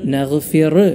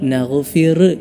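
Both takes have the same delivery.

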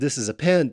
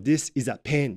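First: It is said with native English pronunciation. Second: It is said with Japanese-accented pronunciation. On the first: The speaker calls it right. "って言ってって言っても" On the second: The speaker calls it wrong. "になっちゃうわけなんですよね"

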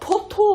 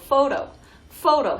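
First: The word begins with a p sound. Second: The word begins with an f sound. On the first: The speaker calls it wrong. "포토 하지 마시고" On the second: The speaker calls it right. "photo 해주시면 됩니다"

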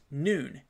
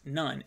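First: The vowel is a long 'oo' sound. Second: The vowel is a short 'uh' sound. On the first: The speaker calls it right. "it's pronounced noon" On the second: The speaker calls it wrong. "it's not pronounced none"

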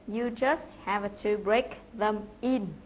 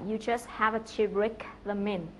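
First: Each word is said separately, sounding choppy. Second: The words run together, with them and in linked. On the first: The speaker calls it wrong. "không có nối âm và nói rất là rời rạc" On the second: The speaker calls it right. "Chúng ta phải phát âm và nối âm như sau"

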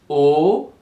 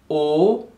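No difference in how they are said.

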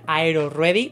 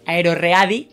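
First: The word is pronounced the English way. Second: The word is pronounced the Spanish way. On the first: "a ver si se pronuncia AeroReady" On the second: "para los que no sepan inglés"

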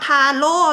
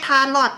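First: The word ends in a vowel, no final t. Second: The word ends with a final t sound. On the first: The speaker calls it right. "อ่านว่าทาโร่นะคะ" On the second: The speaker calls it wrong. "ไม่ใช่ทาลอตเนาะ"

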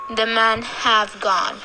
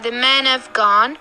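First: The word 'have' is said in a full form with a clear vowel. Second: The word 'have' is said in a weak form with a schwa. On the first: The speaker calls it wrong. "instead of saying" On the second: The speaker calls it right. "we say"

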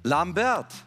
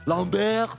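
First: The name is pronounced in a non-French way. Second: The name is pronounced in a French way. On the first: The speaker calls it wrong. "dass er die Namen falsch ausspricht" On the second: The speaker calls it right. "Das wäre natürlich krass schwer gewesen"

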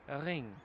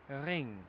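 The two takes are said the same way.

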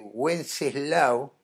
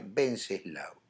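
First: The name starts with a W sound. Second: The name starts with a B sound. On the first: The speaker calls it wrong. "¿No es Wenceslao?" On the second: The speaker calls it right. "se pronuncia Venceslao"

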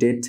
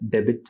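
First: It is said as one syllable without a b. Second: It is said as two syllables with a b. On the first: The speaker calls it right. "debt উচ্চারণ" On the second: The speaker calls it wrong. "not debit"

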